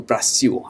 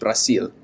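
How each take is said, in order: First: The final sound is a W. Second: The final sound is a clear L. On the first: "I had the tendency to pronounce those as W's" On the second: "like Brasil in Spanish"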